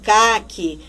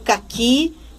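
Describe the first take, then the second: First: The stress is on the first syllable. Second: The stress is on the last syllable. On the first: The speaker calls it wrong. "Ninguém vai ler" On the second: The speaker calls it right. "Eu vou ler caqui e saci"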